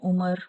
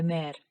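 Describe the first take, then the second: First: The second vowel sounds like 'a'. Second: The second vowel sounds like 'e'. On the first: This is the Urdu form. "Urdu में उमर कहते हैं" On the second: This is the Turkish form. "मगर अमेर तुर्कचे में"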